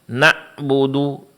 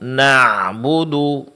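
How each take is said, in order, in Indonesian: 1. Bunyi ain terputus seperti hentian. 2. Bunyi ain halus dan setengah dilepaskan. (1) "dengan suara tertahan, maka di sini dia akan berubah mirip dengan huruf hamzah" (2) "yang benar adalah"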